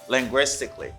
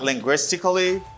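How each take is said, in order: First: The ending is said as one syllable, cly. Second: The ending is said as two syllables, ca-lly. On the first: The speaker calls it right. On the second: The speaker calls it wrong.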